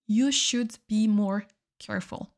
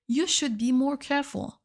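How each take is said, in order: First: Slowly, each word laid out clearly; careful slow classroom model; slow repeat for learners. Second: Said in the usual way. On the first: Shown as a demonstration. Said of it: "teacher repeats example slowly". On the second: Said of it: "teacher repeats example".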